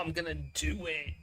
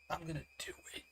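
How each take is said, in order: First: Said in the usual way. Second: Whispered under the breath; a conspiratorial whisper. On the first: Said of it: "repeated as whisper". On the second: Acted. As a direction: say it like a guilty secret. Whispered repeat of own line.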